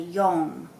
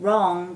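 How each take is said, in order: First: The word begins with a Y sound. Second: The word begins with an R sound. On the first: The speaker calls it wrong. "they'll say" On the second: The speaker calls it right. "r sound"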